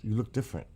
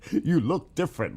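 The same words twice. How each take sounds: First: Said in the usual way. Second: Laughing through the words. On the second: Real, not acted. Teasing a viewer who looks different, laughing. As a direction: giggle it out at a viewer's new photo.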